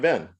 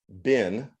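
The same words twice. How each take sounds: First: The vowel is short, like 'ben'. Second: The vowel is long, like 'bean'. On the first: "it sounds more like Ben" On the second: "Than been"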